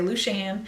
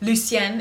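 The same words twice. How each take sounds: First: The name has a regional Southern pronunciation. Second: The name has its standard pronunciation. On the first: "we're a little bit hillbilly... so we all say Lucienne" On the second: "if you pronounce it correctly"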